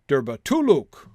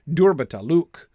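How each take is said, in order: First: The stress is on the third and fourth syllables. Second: The stress is on the first and fourth syllables. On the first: "without a stress on the first two syllables, but with a stress on three and four" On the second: "one in four"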